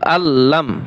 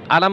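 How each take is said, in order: First: The l sound is held long. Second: The l sound is short and quick. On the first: The speaker calls it right. "কিন্তু আল্লাম" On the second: The speaker calls it wrong. "আলাম বলবেন না"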